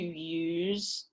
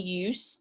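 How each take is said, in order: First: The word ends in a voiced z sound. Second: The word ends in a voiceless s sound. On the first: It is used as a verb. "to use, the verb" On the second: It is used as a noun. "change the voiceless to voice ... one use, the noun"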